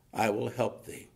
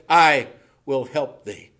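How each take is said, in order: First: Said in the usual way. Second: "I" punched loud and held long; slow down and lean hard on "I"; stress on I. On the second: Acted. Preacher reminding God's people of his promise, "I" loud and stretched.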